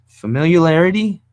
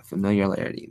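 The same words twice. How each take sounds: First: "Familiarity" pitched high and loud, as a question; "Familiarity" said louder and higher, testing it; questioning attempt. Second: "familiarity" said low and soft, as settled; "familiarity" dropped low and quiet, no question; quiet confirmation. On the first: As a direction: try out "Familiarity" loudly, high and unsure. Tries the hard word once more. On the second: Confirms the word to himself. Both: Real, not acted.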